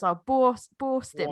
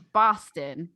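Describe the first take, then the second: First: Mock British-style Boston. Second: Boston accent demo. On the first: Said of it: "I think over here everyone goes". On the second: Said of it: "it's like". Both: Shown as a demonstration.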